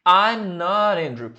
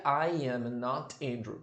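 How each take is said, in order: First: "I'm not Andrew" louder, contracted and linked; teacher showing the usual way; natural contraction. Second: "I am not Andrew" slow and soft, every word separate; teacher showing what nobody says; stilted full form. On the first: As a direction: say the natural short form with energy. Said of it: "olha comigo aqui". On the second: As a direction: say the unnatural full form quietly. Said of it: "ninguém vai falar assim". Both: Shown as a demonstration.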